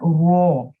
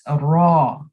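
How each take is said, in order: First: The r sound is rounded with the lips. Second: The r sound is made with the tongue tip. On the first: The speaker calls it wrong. "Don't use your lips to pronounce this letter. It's not raw" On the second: The speaker calls it right. "it's raw"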